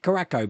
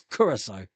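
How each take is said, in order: First: The word ends with a 'ko' sound. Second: The word ends with a 'sow' sound. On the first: The speaker calls it wrong. "For years, I've been pronouncing it Caraco" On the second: The speaker calls it right. "but no, it's Curacao"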